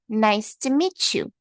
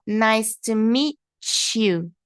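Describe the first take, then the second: First: "meet you" joined into "meechu", slow; "Nice to meet you" with "meet you" as "meechu"; meet you linked. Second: Very slow, "meet" and "you" separated; slow separated "nice to meet you" before linking; slow split model. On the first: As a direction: blend "meet you" into one sound. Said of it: "juntar esse T com o som do you". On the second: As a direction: break "meet" and "you" apart slowly. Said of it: "Aqui, ó". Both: Shown as a demonstration.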